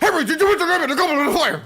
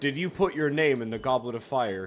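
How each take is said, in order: First: It is said in a hurried, agitated way. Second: It is said calmly and evenly.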